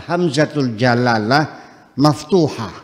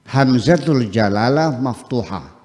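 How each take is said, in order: The two takes are said the same way.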